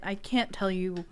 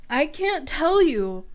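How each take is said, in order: First: Said in the usual way. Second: "I can't tell you" slower, higher and louder, leaning on "tell"; slow emphatic repeat. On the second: Shown as a demonstration. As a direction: drag it out, pressing on "tell".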